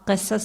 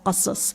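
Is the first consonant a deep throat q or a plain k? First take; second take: plain k; deep q. First: It begins with a plain front k sound. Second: It begins with a deep throat q sound. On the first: The speaker calls it wrong. "कसस नहीं, किस्सा हम लोग तो के कर देते ना थोड़ा" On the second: The speaker calls it right. "कह कह, कसस कसस"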